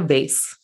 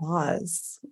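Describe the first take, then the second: First: The word is said in a plain, casual way. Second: The word is said in a fancy, posh way. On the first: The speaker is being casual. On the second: The speaker is feeling fancy.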